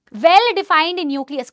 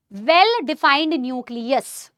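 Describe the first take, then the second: First: Very slow and louder, each word stressed; slow emphatic dictation. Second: Very slow, drawn-out words; slow dictation. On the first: Teacher repeats the phrase for students, slow and louder. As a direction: press each word as they write. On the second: Teacher dictates a phrase for students' notes, slow. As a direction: dictate it word by word. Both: Shown as a demonstration. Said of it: "ma'am लिखना है क्या".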